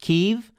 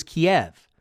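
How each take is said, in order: First: Kyiv as one syllable, "keev"; Ukrainian pronunciation. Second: Kiev in two syllables, "kee-EV"; Russian-style pronunciation. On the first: Host raises the capital's name, Kyiv said "keev". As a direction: say Kyiv to rhyme with sleeve. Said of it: "how to pronounce its capital". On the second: Host recalls the old name, Kiev said "kee-EV". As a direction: say Kiev ending like "Bev". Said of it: "Kiev is a Russian pronunciation". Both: Shown as a demonstration.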